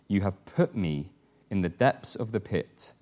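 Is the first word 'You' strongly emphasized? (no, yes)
no. The word 'You' carries no special emphasis.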